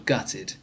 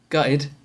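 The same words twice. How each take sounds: First: The T sounds are pronounced clearly. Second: The T sounds are dropped, not pronounced. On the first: Someone is truly devastated. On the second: Someone is being mocked for a misfortune.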